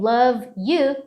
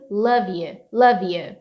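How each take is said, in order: First: "love you" as two separate words; separated words. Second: "love you" run together as "luh-vyou"; linked words. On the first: Teacher showing what to avoid, unlinked "love you". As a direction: keep a gap between "love" and "you". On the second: Teacher showing the linked way, joined "love you". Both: Shown as a demonstration. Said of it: "Ao invés de falar".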